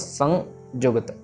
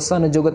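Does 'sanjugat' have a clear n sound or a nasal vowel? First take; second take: nasal vowel; n sound. First: The vowel is nasalized with no full n consonant. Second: A full n consonant is heard after 'sa'. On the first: The speaker calls it right. "न की आवाज नहीं आनी चाहिए" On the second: The speaker calls it wrong. "संजुगत नहीं कहना"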